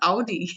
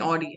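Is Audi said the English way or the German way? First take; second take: German; English. First: Audi is said with a German-style pronunciation. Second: Audi is said with an English-style pronunciation. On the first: The speaker calls it right. "It is Audi" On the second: The speaker calls it wrong. "he was saying Audi"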